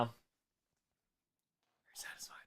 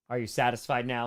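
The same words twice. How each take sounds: First: Slow breathy whisper, barely voiced; creepy slow whispered question. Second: Said in the usual way. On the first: Shown as a demonstration. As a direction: lean in and whisper it slowly.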